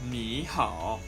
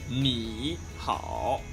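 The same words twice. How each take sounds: First: The first syllable has a rising tone. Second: The first syllable has a low dipping tone. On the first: The speaker calls it right. "they just go ni hao" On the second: The speaker calls it wrong. "instead of ni hao"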